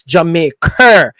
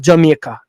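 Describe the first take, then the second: First: Jamaica ending in a hard, stretched "-kerr"; upgraded pronunciation. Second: Said in the usual way. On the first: Shown as a demonstration. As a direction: lean on an added final R in Jamaica. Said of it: "It's upgraded". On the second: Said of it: "It's not Jamaica".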